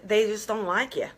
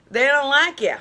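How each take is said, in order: First: Said in the usual way. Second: Emphatic repeat. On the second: Shown as a demonstration.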